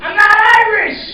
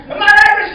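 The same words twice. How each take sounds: First: Raised protest. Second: Shouted protest. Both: Shown as a demonstration.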